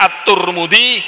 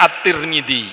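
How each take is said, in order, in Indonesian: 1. Vokal setelah T adalah u. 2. Vokal setelah T adalah i. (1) "bisa dibaca At-Turmudi" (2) "bisa dibaca At-Tirmidzi"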